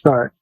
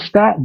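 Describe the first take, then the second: First: The word is said with the r sound. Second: The word is said without the r sound. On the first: "He was saying start" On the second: "their Boston accents"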